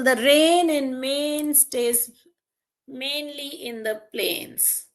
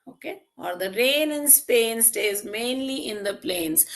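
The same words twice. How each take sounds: First: Rain and Maine drawn out slowly, each rhyme sound stressed; slow, stressed example. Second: Said in the usual way. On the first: Shown as a demonstration. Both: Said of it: "So for example".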